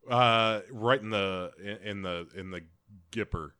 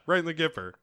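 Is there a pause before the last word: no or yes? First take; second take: yes; no. First: There is a pause before the last word. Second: There is no pause before the last word.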